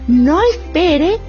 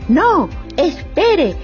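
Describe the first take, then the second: First: It is said without a pause after no. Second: There is a short pause after no.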